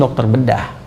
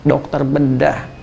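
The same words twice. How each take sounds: First: Said in the usual way. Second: "dokter bedah" drawn out slowly and softer, each syllable weighted; awed slow "dokter bedah", softer; slow emphatic repeat. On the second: Shown as a demonstration.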